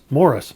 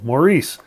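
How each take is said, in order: First: The stress is on the first syllable. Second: The stress is on the second syllable. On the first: The speaker calls it right. "Here in Canada, as well as in England, where Morris is from, that's how you pronounce it" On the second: The speaker calls it wrong. "in the U S, they're determined to pronounce it like the French, with the accent on the second syllable"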